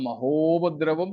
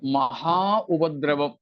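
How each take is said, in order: First: The two parts are merged into one word. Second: The two parts are said separately, not merged.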